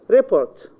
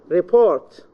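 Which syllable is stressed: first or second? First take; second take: first; second. First: The stress is on the first syllable. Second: The stress is on the second syllable. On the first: It is used as a noun. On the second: It is used as a verb.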